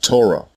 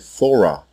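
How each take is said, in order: First: The word starts with a hard t sound. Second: The word starts with a soft th sound. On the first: This is the later Masoretic pronunciation. The speaker calls it wrong. "as it is pronounced in the Masoretic dialect" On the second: This is the ancient Hebrew pronunciation. The speaker calls it right. "you have heard me say Thorah"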